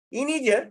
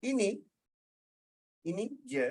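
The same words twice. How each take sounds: First: Mocking, higher-pitched jeer. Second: Soft, halting reply with a pause; second intonation, sympathetic. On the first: Speaker shows Kak Liza the first intonation, mocking. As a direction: say it as a scornful taunt. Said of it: "dalam bentuk nak mengejek". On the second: Speaker shows the second intonation of the reply, soft. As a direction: say it quietly, offering what little there is. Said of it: "Intonasi kedua". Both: Shown as a demonstration.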